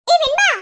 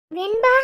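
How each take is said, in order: First: High, loud call. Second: Name called with rising end; concerned call. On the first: Friend calling Venba, raised high call. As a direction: call sharply to get her attention. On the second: Friend calling after Venba, concerned rising call. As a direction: call her name in a normal pitch, lifting at the end. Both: Acted.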